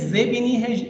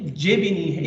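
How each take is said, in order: First: जे with a buzzing zh-like z; ze sound. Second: जे said with a hard j as in jeep; जे with a plain English j; je sound. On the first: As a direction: say जे like the s in measure. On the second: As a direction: give जे a firm j, not a zh. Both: Shown as a demonstration. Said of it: "इन दोनों के बीच की आवाज़ है".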